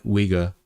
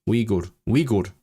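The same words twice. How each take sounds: First: "Uyghur" as English WEE-gur; English pronunciation. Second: "Uyghur" bent to WEE-goord; Slavic-style pronunciation. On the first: Streamer checking the English version, "Uyghur" as WEE-gur. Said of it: "the English one is Uyghur". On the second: Streamer trying Slavic English, "Uyghur" as WEE-goord. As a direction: put an oo in the end of "Uyghur". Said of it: "bend the pronunciation to make it Slavic". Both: Shown as a demonstration.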